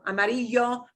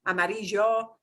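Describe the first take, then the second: First: The ll is a soft y sound. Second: The ll is a soft y sound.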